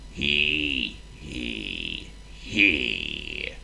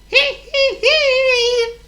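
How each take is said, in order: First: It is said in a mournful, gloomy tone. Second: It is said as a cheerful laugh.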